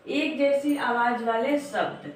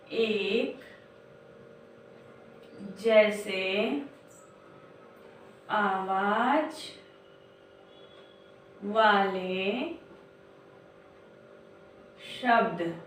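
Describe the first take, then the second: First: Said in the usual way. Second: Each word drawn out slowly, long pauses between; slow dictation. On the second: Shown as a demonstration. Teacher dictating slowly to young children. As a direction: spell it out word by word like dictation to a class. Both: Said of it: "ध्यान से आप लोग देखिए".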